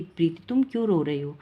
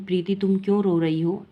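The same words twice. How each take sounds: First: Said in the usual way. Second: A light lift, as Suman madam asks; teacher asking kindly. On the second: Acted. Suman madam asks a crying Preeti why she cries, lightly voiced.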